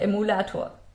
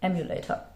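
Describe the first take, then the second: First: The word is pronounced the German way. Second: The word is pronounced the English way.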